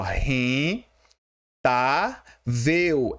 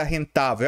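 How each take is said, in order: First: "ren-, tá-vel" broken up with long pauses; split into syllables. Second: Said in the usual way. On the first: Shown as a demonstration. Teacher showing students how rentável divides, syllable by syllable. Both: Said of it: "Como é que se separa rentável?".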